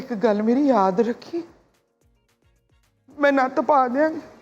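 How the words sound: It is said in a sad tone.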